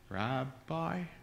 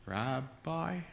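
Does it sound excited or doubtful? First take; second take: doubtful; doubtful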